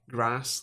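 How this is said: It is said with a Scottish vowel. "I still pronounce like grass"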